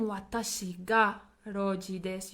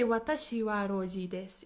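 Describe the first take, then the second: First: "Watashi ga" set apart and stressed before "roji desu"; emphasis on self. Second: Said in the usual way. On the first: Shown as a demonstration. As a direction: lean on "Watashi ga", then pause briefly. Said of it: "you're putting emphasis on yourself". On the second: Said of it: "you're not putting emphasis on anything".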